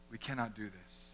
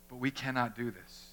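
First: Much softer, low echo; soft solemn repeat; quiet. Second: Said in the usual way. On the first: Shown as a demonstration. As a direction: drop to a near hush for the repeat. Repeats line, second much softer.

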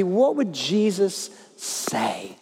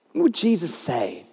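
First: Drawn out, each word weighed; slow emphatic question. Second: Said in the usual way. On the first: Acted. Preacher to congregation, slow weighty question. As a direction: let the question hang slowly.

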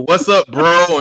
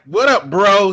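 First: Louder, higher hammed-up bro greeting; mock awkward dude greeting. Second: Higher, louder hammed-up bro greeting; mock awkward dude greeting. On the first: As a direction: play a clumsy guy forcing slang. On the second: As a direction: fake street slang from an outsider. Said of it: "But it's like".

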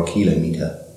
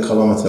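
First: "kilometer" as KIL-oh-MEE-ter; "kilometer" as kilo plus meter; first-syllable stress. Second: "kilometer" as kuh-LOM-iter; "kilometer" rhyming with thermometer; second-syllable stress. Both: Shown as a demonstration. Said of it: "is it a kilometer or a kilometer".

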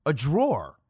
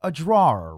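First: "drawer" in one syllable, drawr, for a dresser compartment; one-beat "drawer", the furniture word. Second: "drawer" in two syllables, draw-er, for someone who draws; "drawer" stressed on draw, a light -er after; drawer for a person. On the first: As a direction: say "drawer" as a single syllable rhyming with door. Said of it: "handled compartments of your armoire or dresser". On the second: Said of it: "spell out the word drawer". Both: Shown as a demonstration.

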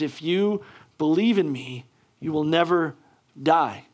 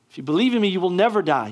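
First: Said in the usual way. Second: Higher and louder, ringing out the promise; preaching at full force. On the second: Acted. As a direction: proclaim it to the whole hall, building. Preacher repeats promise with rising force.

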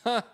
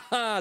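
First: A single dry, bitter ha; one short scoffing ha, no joy in it; cynical ha. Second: A loud, high victorious haha; triumphant laugh. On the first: Preacher shows how Sarah really laughed, dry cynical ha. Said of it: "sondern sie lacht". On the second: Preacher demonstrates Sarah's laugh, loud triumphant haha. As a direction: laugh like someone who has just won. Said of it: "Sie lacht nicht". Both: Shown as a demonstration.

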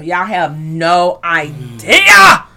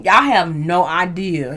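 First: "idea" stretched out into a loud cry; very slow, with "idea" blown up big; exaggerated emphasis. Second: "no idea" drawn out slowly; slow, low weight on "no idea"; emphatic. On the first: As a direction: drag it right out, bursting loud on "idea". Repeats it far more emphatically. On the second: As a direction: stretch "no idea" at a low pitch. Emphatic remark, first take. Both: Real, not acted.

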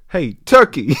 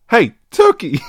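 First: Put-on loud call with a failing British accent; British impression falling apart on a yell; slipping British accent. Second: Louder, higher yell in an attempted British accent; British accent retake. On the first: Impressionist calling to a turkey, slipping British accent. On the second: Impressionist calling to a turkey again, British yell. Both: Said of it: "losing the British accent completely".

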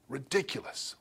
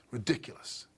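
First: Soft, voiced sneer at the word ridiculous; quiet scoff. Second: Breathy scoff through a laugh, softer. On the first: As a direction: sneer it under your breath. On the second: Retold or imitated. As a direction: laugh the word off in contempt. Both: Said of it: "That's the tone of what's going on here".

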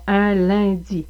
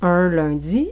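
First: "un lundi" sounding like "in lindi", European French; slow contrast demo of European French; European French accent. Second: "Un lundi" with rounded Quebec French "un"; slow Quebec French demo of "un"; Quebec French accent. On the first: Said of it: "et non". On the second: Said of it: "On insiste sur le un". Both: Shown as a demonstration.

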